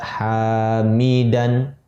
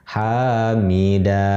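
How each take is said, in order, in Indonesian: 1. Kata ini diakhiri dengan bunyi n. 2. Kata ini diakhiri dengan vokal, tidak ada n. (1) "dibaca hamidan" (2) "Kalau berhenti, maka seolah-olah hilang tanwinnya"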